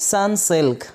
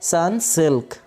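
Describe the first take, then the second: The two takes are said the same way.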